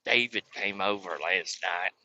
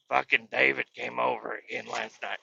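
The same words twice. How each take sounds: First: Low, soft, slow grandma. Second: Slightly softer grandma take; wrong grandma voice. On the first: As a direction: imitate grandma slowly, pitched down. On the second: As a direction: voice grandma lightly, near your own pitch. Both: Retold or imitated. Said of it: "Grandma doesn't talk like that".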